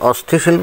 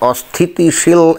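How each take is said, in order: First: The middle syllable 'ti' is dropped. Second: The middle syllable 'ti' is kept. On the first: The speaker calls it wrong. "সে কিন্তু বললো যে দেশকে অস্থিশীল" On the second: The speaker calls it right. "এই শব্দটা সে সঠিকভাবে উচ্চারণ করতে পারছে না"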